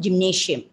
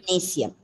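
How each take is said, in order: First: The ending is said with a 'sh' sound. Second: The ending is said with an 's' sound. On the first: The speaker calls it wrong. "we bring a shiam sound, the gymnasium. It's wrong" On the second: The speaker calls it right. "You have to bring that sa sound"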